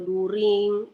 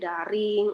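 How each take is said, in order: First: The word begins with a plain 'du' sound. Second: The word begins with a 'da' sound. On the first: "kalian bacanya daring atau during, kan nggak bagus didengar" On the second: "kalian bacanya daring atau during, kan nggak bagus didengar"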